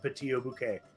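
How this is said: It is said in a put-on French accent. "put a bad French accent on it"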